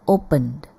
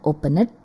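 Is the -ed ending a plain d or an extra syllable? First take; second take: plain d; extra syllable. First: The ending is a plain d sound. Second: The ending is said as an extra syllable. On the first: The speaker calls it right. "tapi opened" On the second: The speaker calls it wrong. "bukan opened"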